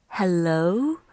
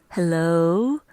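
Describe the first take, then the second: Both takes have the same delivery.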